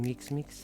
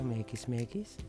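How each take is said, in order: First: It is said plainly, without an imitated accent. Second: It is said in an imitated Indian-style accent. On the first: "Pag sinabing mix-mix" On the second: "sabi nila mekis-mekis"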